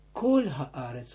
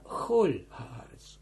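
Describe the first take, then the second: First: Kol haaretz with a hard k; not kol. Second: Chol haaretz with a throaty ch; chol, not kol. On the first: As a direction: kol said with a plain hard k sound. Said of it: "En kijk nou hoe ik het uitspreek. Niet ... niet". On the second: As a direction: start chol with a rasping ch, like Dutch g. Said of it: "En kijk nou hoe ik het uitspreek". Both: Shown as a demonstration.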